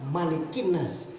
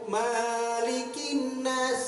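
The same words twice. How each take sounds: First: The first vowel of Malik is kept short. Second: The first vowel of Malik is drawn out long. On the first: The speaker calls it right. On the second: The speaker calls it wrong.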